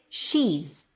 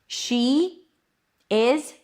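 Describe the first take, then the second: First: The verb shrinks to a z sound attached. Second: Both words are said fully and separately. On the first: "is reduces to z" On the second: "is reduces to z"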